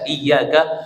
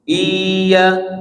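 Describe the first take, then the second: First: The y sound is short, not doubled. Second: The y sound is held long, doubled. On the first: We worship the sunlight. The speaker calls it wrong. "Kalau kita enggak pakai tasydid" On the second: We worship God. The speaker calls it right. "baca dengan tasydid"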